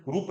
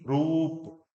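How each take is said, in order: First: "रूप" with a short, quick u; wrongly shortened vowel. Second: "रूप" with oo stretched out; long vowel. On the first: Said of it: "रूप नहीं". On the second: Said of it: "बड़ा करके बोलना है". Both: Shown as a demonstration.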